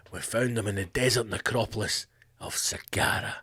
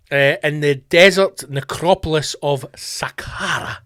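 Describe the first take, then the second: First: Low, soft epic movie-trailer delivery of "desert necropolis"; hushed, lower trailer narrator; Hollywood trailer voice. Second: Said in the usual way. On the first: Shown as a demonstration. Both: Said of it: "It just sounds Hollywood".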